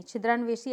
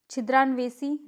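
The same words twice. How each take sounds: First: छिद्रान्वेषी ending in shee; correct pronunciation. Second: छिद्रान्वेषी ending in see; wrong pronunciation. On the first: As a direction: model छिद्रान्वेषी with sh in the last syllable. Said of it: "ऐसे लिखेंगे". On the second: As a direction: demonstrate छिद्रान्वेषी with s in the last syllable. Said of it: "नहीं". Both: Shown as a demonstration.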